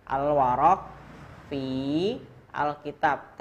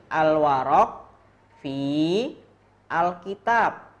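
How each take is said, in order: First: Said in the usual way. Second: Al-warok fi al-kitab, louder with pauses; clear model reading. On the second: Shown as a demonstration. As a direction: read Al-warok fi al-kitab out strongly. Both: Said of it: "cara bacanya gini".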